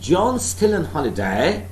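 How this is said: The voice rises at the end. It is a question that needs an answer. "said with a rising pitch ... that is a questioning style"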